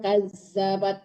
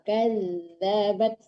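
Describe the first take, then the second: First: The middle consonant is a hard z sound. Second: The middle consonant is a soft dh sound. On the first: The speaker calls it wrong. "jangan kazabat, jangan zai" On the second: The speaker calls it right. "tapi zal, kazabat, lembutkan"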